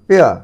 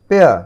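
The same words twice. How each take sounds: The two takes are said the same way.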